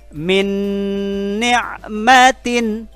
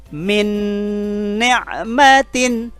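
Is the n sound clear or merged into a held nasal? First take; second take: merged; merged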